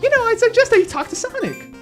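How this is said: It is voiced as Cream.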